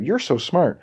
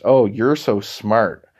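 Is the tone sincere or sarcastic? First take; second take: sincere; sarcastic. First: It is said sincerely, as real praise. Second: It is said sarcastically, as mockery.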